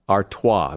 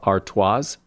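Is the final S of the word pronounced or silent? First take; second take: silent; pronounced. First: The final S is silent. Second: The final S is pronounced. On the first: The speaker calls it right. "but it's Stella Artois. The last S is silent" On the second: The speaker calls it wrong. "A lot of people pronounce that last S as"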